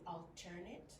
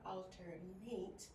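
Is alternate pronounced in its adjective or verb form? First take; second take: adjective; verb. First: It is pronounced the adjective way. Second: It is pronounced the verb way. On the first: The word describes something as another option. "when it's usually used as an adjective" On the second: The word names an action of taking turns. "when it's used as a verb"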